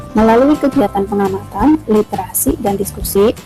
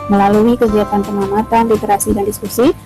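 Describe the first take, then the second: Both takes have the same delivery.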